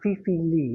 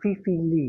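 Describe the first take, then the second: First: The surname sounds like 'lee'. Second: The surname sounds like 'lee'.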